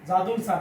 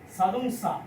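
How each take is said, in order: First: The first sound is a voiced j. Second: The first sound is a voiceless ch-like sound. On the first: The speaker calls it wrong. "এটা কি জাদুং সা না" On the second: The speaker calls it right. "ছয়ের মতো উচ্চারিত হবে"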